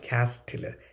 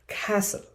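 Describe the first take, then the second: First: The T sound is pronounced in the middle. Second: The T sound is left out entirely. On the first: The speaker calls it wrong. "it is not castle" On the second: The speaker calls it right. "It is castle"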